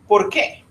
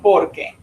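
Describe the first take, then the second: First: The stress falls on the last syllable. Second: The stress falls on the first syllable.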